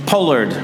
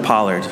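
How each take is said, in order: First: "pollard" with a long O, as in "pole"; British pronunciation. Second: Said in the usual way. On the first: Retold or imitated. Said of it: "My British friends ... when they say". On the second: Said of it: "instead of pollard".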